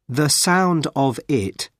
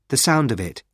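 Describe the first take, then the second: First: The words are said separately. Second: The words run together as one.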